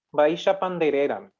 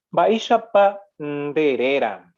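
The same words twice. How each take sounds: First: Said in the usual way. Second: Slow, drawn-out Baisha Pandereran; slow model reading. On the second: Shown as a demonstration. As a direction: read Baisha Pandereran slowly, stretching the syllables. Teacher reads out Guarani example slowly.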